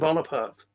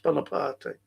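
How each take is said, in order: First: Bonaparte is pronounced the usual English way. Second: Bonaparte is pronounced the Italian way. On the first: The speaker calls it wrong. "they say Napoleon Bonaparte? It's not how it's pronounced" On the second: The speaker calls it right. "It's Bonaparte, Italian"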